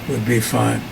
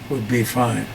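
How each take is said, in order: The two takes are said the same way.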